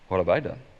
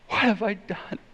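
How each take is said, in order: First: It is said in an indignant, defensive tone. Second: It is said in a sorry, remorseful tone. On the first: The speaker denies doing anything wrong. "But how many times have we said" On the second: The speaker admits wrongdoing and asks forgiveness. "How could I hurt you that way? Forgive me"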